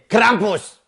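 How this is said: It is said in a German accent.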